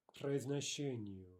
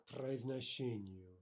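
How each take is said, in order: Both takes have the same delivery.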